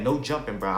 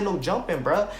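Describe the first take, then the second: First: Said in the usual way. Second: Firm call. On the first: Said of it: "I was like". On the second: Retold or imitated. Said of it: "I said".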